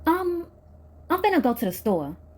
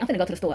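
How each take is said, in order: First: It is said hesitantly after a sigh. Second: It is said plainly, without hesitation.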